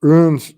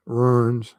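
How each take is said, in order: First: "Ruins" meant as runes, punched loud and higher; runes pronunciation. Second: "ruins" drawn out as in destruction, Southern-style; ruins, destructive sense. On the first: Clarifying a word for chat, "Ruins" said as runes. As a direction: say "Ruins" as runes, the Odinist letters. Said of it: "of the Odinist, uh, character". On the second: Telling chat which word is not meant, "ruins" drawn out. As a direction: say "ruins" slowly, with a Southern r-coloured vowel. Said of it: "not destructive or ruins". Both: Shown as a demonstration.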